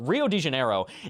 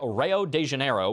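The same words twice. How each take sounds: First: It is said in the speaker's ordinary accent. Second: It is said in a heavy Southern US accent.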